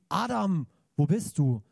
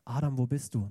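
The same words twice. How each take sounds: First: It is shouted harshly. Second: It is called gently and lovingly.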